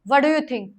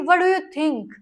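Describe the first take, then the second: First: It is said in an annoyed, negative tone. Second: It is said in a friendly, positive tone. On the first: The speaker is puzzled by what was said. "उसको समझ नहीं आया" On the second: The speaker sincerely asks for an opinion. "इस बारे में तू क्या सोचती है"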